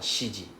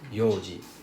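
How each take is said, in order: First: It begins with shi, with a sh sound. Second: It begins with yo, with no n sound. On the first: The speaker calls it wrong. "or shiji" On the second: The speaker calls it right. "It's read as yoji"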